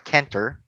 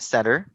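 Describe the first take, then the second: First: The c is said as a k sound. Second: The c is said as an s sound. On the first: The speaker calls it wrong. "nor plake or canter" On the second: The speaker calls it right. "and center"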